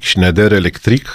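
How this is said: The name is said with a French pronunciation.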